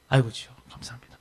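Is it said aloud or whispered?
aloud. It is said aloud in a normal voice.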